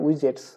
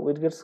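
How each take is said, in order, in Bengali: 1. 'j'-এর আগে কোনো আলাদা 'd' ধ্বনি আসে না। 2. 'j'-এর আগে আলাদা 'd' ধ্বনি আসে।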